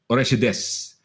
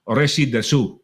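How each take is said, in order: First: The final u vowel is dropped entirely. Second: The final u vowel is clearly pronounced. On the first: The speaker calls it right. "they say it" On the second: The speaker calls it wrong. "if we were to read it"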